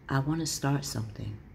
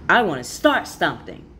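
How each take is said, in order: First: It is said in a softer, inviting way. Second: It is said in a forceful, intense way. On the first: It invites others in rather than pushing them away. The speaker calls it right. "in a way where it invites" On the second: It might feel alarming to others. The speaker calls it wrong. "as a fire energy, it might sound like"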